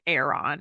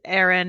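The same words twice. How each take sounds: First: The name has a Welsh-style pronunciation. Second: The name has a plain English pronunciation.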